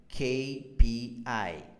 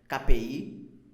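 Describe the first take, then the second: First: The letters are named with English sounds. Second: The letters are named with Portuguese sounds. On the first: The speaker calls it right. "Então o correto ali é" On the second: The speaker calls it wrong. "Mas não vai entender você falando dessa forma"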